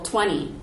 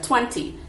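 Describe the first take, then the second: First: The unstressed t sounds more like an n. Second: The unstressed t is said as a clear t. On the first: "for T's that are not stressed, they end up sounding more like an N" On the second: "instead of twenty"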